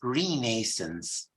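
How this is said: The word is said with a British pronunciation. "in British English it's Renaissance"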